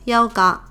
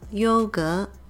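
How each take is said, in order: First: The word is pronounced the Cantonese way. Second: The word is pronounced the Mandarin way. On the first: "but in Cantonese it's" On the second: "yogurt in Mandarin is"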